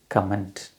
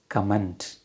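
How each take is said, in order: The two takes are said the same way.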